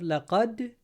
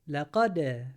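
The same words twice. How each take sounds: First: The final d stops flat, with no echo. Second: The final d ends with a slight echoing bounce. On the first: The speaker calls it wrong. "Instead of لقد" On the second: The speaker calls it right. "make it bounce"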